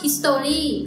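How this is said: It is said with a Thai-style pronunciation. "แต่คนไทยก็จะอ่านพอเห็นแบบนี้มันก็"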